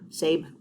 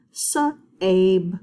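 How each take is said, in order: First: Said in the usual way. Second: "Sa-abe" with the long A drawn out; stretched sounding out. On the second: Shown as a demonstration. Teacher blends a nonsense word slowly. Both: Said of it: "the A does the talking".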